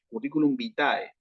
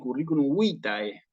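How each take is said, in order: First: The stress in vitae is on the last syllable. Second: The stress in vitae is on the first syllable. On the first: The speaker calls it wrong. "a la A le ponen el acento" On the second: The speaker calls it right. "El acento va en la penúltima sílaba, que es la I"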